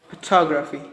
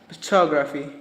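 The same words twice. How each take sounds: The two takes are said the same way.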